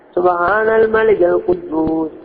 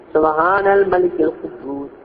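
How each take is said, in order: No difference in how they are said.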